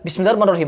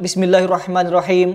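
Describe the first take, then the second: First: It is rushed so the sounds run together. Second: It is recited quickly but every sound is clear. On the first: The reciter is hurrying and loses accuracy. The speaker calls it wrong. "Kalau terburu-buru beda lagi" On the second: The reciter reads fast while keeping it correct. The speaker calls it right. "Seperti ini cepat"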